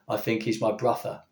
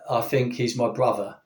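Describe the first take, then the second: First: Think starts with v, brother has an f. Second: Think starts with f, brother has a v. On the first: The speaker calls it wrong. "rather than" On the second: The speaker calls it right. "so it's a f, whereas it's brother, so it'd be a v. Okay, so we say"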